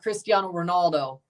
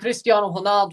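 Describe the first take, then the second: First: The name is said with an English pronunciation. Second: The name is said with a Portuguese pronunciation. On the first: The speaker calls it wrong. "not Cristiano Ronaldo" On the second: The speaker calls it right. "They say Cristiano Ronaldo"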